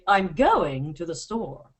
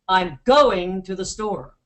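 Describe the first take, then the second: First: British style, stress marked by pitch change. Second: American style, stress marked by louder volume.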